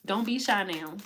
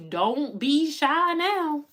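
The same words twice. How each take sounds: First: Said in the usual way. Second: High, slow, drawn-out coaxing; playful sing-song nudge; teasing coax. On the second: Acted. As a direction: tease them out of hiding, stretched long. Coaxing the shy audience.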